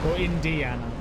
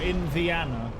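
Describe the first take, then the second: First: The D sound is clearly pronounced. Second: The D sound is dropped or blurred. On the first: The speaker calls it right. "You gotta pronounce the D, surely" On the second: The speaker calls it wrong. "That sounds really weird"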